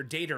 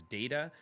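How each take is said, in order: First: "data" said as day-ter. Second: "data" said as day-tuh; data without R. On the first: Retold or imitated. Streamer mimicking an irksome habit, R added to data. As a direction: stick an R on the end of "data". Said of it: "data with an R at the end". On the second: Shown as a demonstration. Streamer correcting the added R, data as day-tuh. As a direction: end "data" on an open uh, no R. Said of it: "but it's data".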